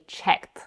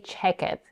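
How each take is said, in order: First: The ending is a single sound, one syllable. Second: The ending is said as an extra syllable. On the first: The speaker calls it right. "we say checked. So we still end up with a one-syllable word" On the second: The speaker calls it wrong. "we don't say check it"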